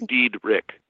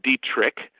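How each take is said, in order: First: The middle consonant is a D sound. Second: The middle consonant is a T sound. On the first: The speaker calls it right. "So it's really Diedrich" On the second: The speaker calls it wrong. "most people pronounce it Dietrich, but there's no T in there"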